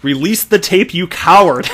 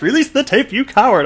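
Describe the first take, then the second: First: Loud mock shout; all caps shout. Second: High, loud mock yell through a laugh; all caps shout. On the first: Reading the all-caps tweet aloud, a mock shout. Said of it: "here it is in all caps". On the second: Rereading the all-caps tweet, louder laughing yell. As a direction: yell it even bigger, laughing. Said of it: "In all caps".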